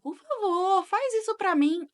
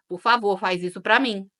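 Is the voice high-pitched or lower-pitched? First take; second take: high-pitched; lower-pitched. First: It is said in a higher-pitched voice. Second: It is said in a lower-pitched voice. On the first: The request is more likely to be granted. The speaker calls it right. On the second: The request is less likely to be granted. The speaker calls it wrong.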